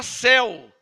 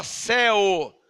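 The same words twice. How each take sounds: First: Said in the usual way. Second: "céu" drawn out in two parts, "cé-o"; archaic pronunciation. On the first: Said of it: "A nossa Bíblia fala". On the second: Shown as a demonstration. Preacher quoting the old Bible, "céu" said as "cé-o". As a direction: end "céu" on a clear, slow O. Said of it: "Essa Bíblia fala céu".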